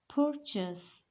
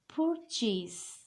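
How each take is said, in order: First: The last syllable is reduced, not chase. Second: The last syllable sounds like chase. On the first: The speaker calls it right. "The sound of A, S, and E is purchase, not chase" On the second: The speaker calls it wrong. "This is not purchase"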